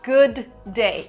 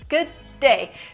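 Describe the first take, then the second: First: The two D sounds are said separately. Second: The words join into one longer D sound. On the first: The speaker calls it wrong. "You don't say good day" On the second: The speaker calls it right. "So D here is a little longer"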